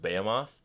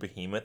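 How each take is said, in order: First: The word is said to sound like Sephiroth. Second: The word is said the usual, standard way. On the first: The speaker calls it wrong. "as Behemoth ... I read it like Sephiroth" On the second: The speaker calls it right. "I pronounced the word Behemoth"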